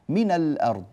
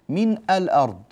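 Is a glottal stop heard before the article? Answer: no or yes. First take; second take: no; yes. First: The article links straight on without a glottal stop. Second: A glottal stop is said before the article. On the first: The speaker calls it right. "أحذف الهمزة، من الأرض" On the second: The speaker calls it wrong. "ولا أقول من الأرض"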